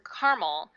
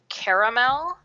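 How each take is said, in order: First: The word is said with two syllables. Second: The word is said with three syllables. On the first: This is the usual West Coast pronunciation. "which is how it's typically pronounced on the West Coast" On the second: This is the usual East Coast pronunciation. "three syllables"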